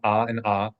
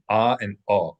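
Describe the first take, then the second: First: Both vowels are said as the same ah sound. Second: The second vowel is said as a different uh sound. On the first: The two vowels are merged. "in modern Hebrew, they pronounce them the same" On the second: The two vowels are kept distinct. "classically they were pronounced distinctly"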